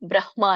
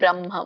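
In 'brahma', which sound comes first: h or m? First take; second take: h first; m first. First: The h sound comes before the m. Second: The m sound comes before the h. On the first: The speaker calls it wrong. "ಅಲ್ಲ" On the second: The speaker calls it right. "ಮ ಹೇಳ್ಬೇಕು first, ಆಮೇಲೆ ಹ ಹೇಳ್ಬೇಕು"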